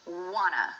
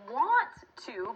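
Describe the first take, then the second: First: The words merge into one short word. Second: Both words are said fully and separately. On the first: "want to becomes wanna" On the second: "And want to becomes"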